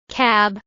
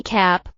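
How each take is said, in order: First: "Cab" ending in a voiced b; final b in cab. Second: "cap" ending in a crisp, voiceless p; final p in cap. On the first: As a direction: let the b in "Cab" buzz. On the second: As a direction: snap the p at the end of "cap". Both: Shown as a demonstration. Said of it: "the P and B sounds at the end".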